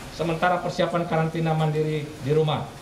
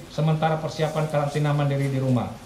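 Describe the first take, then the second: No difference in how they are said.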